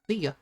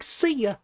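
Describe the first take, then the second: First: It is said in the speaker's normal voice. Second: It is said in an imitated cartoon-character voice.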